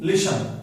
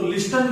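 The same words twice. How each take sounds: First: "लिसन" with the T silent; correct listen. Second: "लिस्टन" with an audible T; wrong listen. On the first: Teacher tells what we will say, silent T. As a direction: say "लिसन" as lishan. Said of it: "इसको बोलेंगे लिसन". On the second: Teacher shows what not to say, T pronounced. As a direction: say "लिस्टन" as list-an. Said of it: "तो लिस्टन नहीं बोलेंगे". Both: Shown as a demonstration.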